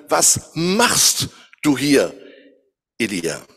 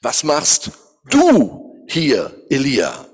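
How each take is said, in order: First: MACHST drawn out and stressed, very slow; slow emphasis on machst, trailing off on Elia. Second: DU drawn out and stressed, very slow; slow loud emphasis on du, surprised at Elijah. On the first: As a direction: lean hard on machst, slowly. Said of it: "mit verschiedenen Betonungen". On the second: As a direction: lean hard on du, slowly and louder. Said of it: "man könnte es auch so ausdrücken". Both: Shown as a demonstration.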